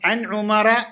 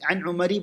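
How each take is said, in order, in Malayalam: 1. പേര് 'a' സ്വരത്തിൽ അവസാനിക്കുന്നു. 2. പേര് 'i' സ്വരത്തിൽ അവസാനിക്കുന്നു. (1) "എന്ന് വായിക്കേണ്ടത്" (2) "പറയാൻ പാടില്ല"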